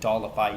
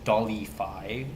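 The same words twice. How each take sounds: First: It is said in the speaker's plain accent. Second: It is said in a Spanish-style accent. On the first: "instead of saying Dollify" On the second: "he says Dollify, in some, in some kind of like Mexican accent"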